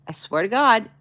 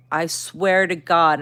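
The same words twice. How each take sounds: First: Higher-pitched, sincere vow; nice reassurance. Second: Slow, emphatic, mildly angry oath; retold anger. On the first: Retold or imitated. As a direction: swear it nicely, to reassure. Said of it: "First tone was nicely". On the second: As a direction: swear it with drawn-out exasperation. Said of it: "and I'm angry".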